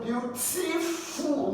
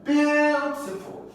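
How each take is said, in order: First: Beautiful with high later syllables, TI-FUL pushed; mis-stressed beau-TI-FUL; wrongly placed stress. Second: Beautiful with BEAU long, high, then dropping; slow demonstrated BEAU-tiful; stress on first syllable. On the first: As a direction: shift the weight off BEAU in beautiful. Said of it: "No, is the first syllable here". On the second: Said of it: "first syllable here that will be stressed". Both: Shown as a demonstration.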